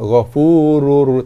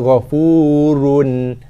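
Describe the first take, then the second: First: The final n merges into an r sound. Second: The word ends with a clear n sound. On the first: The n is merged into the following r. "Kita idghamkan bacaan ke dalam ra" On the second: This is the base form before merging. "Daripada bacaan asalnya"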